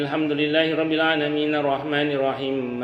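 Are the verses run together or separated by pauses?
run together. The verses run together without any pause. The recitation is valid but not the preferred way. The speaker calls it wrong. "boleh enggak gitu? Boleh, tidak apa-apa. Secara hukum tetap sah"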